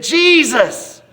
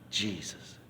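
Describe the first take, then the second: First: High, drawn-out loud cry; hollered at full volume. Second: Very soft, low utterance; quiet, as if thought. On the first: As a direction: holler it as loud as you can. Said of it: "I hollered out just as loud as I could". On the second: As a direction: say it like a thought just arriving. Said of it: "all of a sudden I thought". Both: Retold or imitated.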